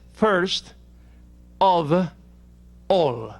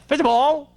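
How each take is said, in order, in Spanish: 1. Las palabras se dicen por separado y con claridad. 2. Las palabras se unen en una sola.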